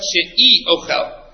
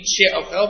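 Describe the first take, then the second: First: She'i ochel with a clear vowel after she, slowly; she'i ochel, a distinct i sound before ochel; careful slow she'i ochel, split in two; separated syllables. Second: Said in the usual way. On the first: Shown as a demonstration. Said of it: "he didn't mean she'ochel". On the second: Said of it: "but she'i ochel".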